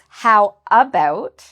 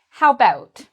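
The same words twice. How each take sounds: First: The first vowel of about is pronounced. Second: The first vowel of about is dropped. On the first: "when we write it, it's how about" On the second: "some people might not pronounce the A"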